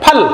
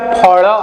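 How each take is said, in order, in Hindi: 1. यह शब्द मानक हिंदी के तरीके से बोला जाता है। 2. यह शब्द उड़िया के तरीके से बोला जाता है। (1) "ऐसा उच्चारण होगा" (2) "उड़िया में फल, तो ऐसा उच्चारण नहीं करेंगे"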